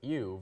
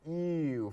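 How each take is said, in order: First: The word is said quickly and short. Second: The word is drawn out and long. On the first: The spelling is EW. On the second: The spelling is EEEW, even more disgusted.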